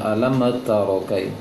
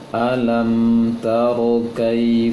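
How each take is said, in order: First: The phrase is read too quickly. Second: The phrase is read at a slower pace. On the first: The speaker calls it wrong. "Bacanya juga terlalu cepat. Jangan" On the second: The speaker calls it right.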